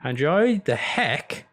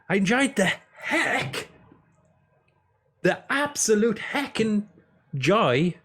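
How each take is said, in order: First: Said in the usual way. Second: High, drawn-out silly voice; hammed-up enthusiasm. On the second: Streamer overselling how much he enjoyed a game, hammed-up. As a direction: stretch it out, pitched way up.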